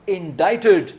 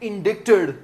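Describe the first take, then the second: First: No 'k' sound; the middle vowel is 'eye'. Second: A 'k' sound is heard before the 't'. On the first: The speaker calls it right. "इसका सही उच्चारण है इंडाइटेड" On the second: The speaker calls it wrong. "बहुत से students इसे बोलते हैं इंडिक्टेड, जी नहीं"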